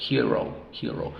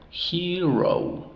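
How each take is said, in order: First: Said in the usual way. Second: "Hero" higher and stretched, "heee-rou"; drawn-out hero. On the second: Shown as a demonstration. Teacher blending the sounds, Hero drawn out. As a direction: hold both long vowels of "Hero". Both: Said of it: "Sílabas abiertas las dos".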